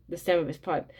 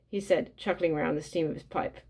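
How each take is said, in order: First: Stem said right with a short e; self-correction, stem with a short e; corrected word. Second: Steam said for stem, a slip; first take, says steam instead of stem; misread word. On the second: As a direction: reads steam with a long ee as in steam. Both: Real, not acted.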